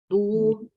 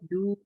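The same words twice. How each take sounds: First: The du sounds heavy and thick. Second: The du sounds light and thin. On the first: The speaker calls it wrong. "saking tebelnya" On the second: The speaker calls it right. "kita tipis aja"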